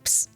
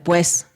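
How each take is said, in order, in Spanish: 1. Las vocales se eliden, y quedan sobre todo consonantes. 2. Las vocales se pronuncian completas en la palabra. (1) "hay una tendencia a, a, a elidir o a quitar un poco las vocales" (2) "En lugar de pues"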